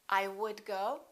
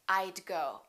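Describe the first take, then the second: First: The words are said in full, uncontracted. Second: The first two words are contracted together.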